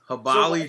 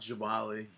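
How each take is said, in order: First: The name begins with an H sound. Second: The name begins with a J sound. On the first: The speaker calls it right. "the J in Spanish is pronounced as an H" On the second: The speaker calls it wrong. "Good to finally know that it's not Jabali"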